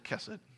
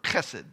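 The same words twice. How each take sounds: First: The first sound is soft, without throat friction. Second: The first sound is a harsh throat-clearing sound. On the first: "we'll just say chesed so that I don't spit on my family" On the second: "If you pronounce it like it's written in Hebrew, it's like you're clearing your throat"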